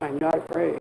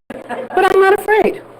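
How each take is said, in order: First: It is said in a very deep voice. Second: It is said in a normal voice.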